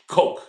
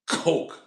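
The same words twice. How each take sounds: First: It has a light, eased throat sound. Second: It has a strong, choked throat sound. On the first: "don't choke as much" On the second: "like you're choking"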